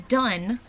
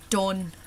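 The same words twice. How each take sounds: First: Said in the usual way. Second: "done" with an open Irish O, far back; Irish accent, open back vowel in "done"; Irish O sound. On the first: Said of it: "whereas in American, it would be". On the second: Shown as a demonstration. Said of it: "in Irish, it's done".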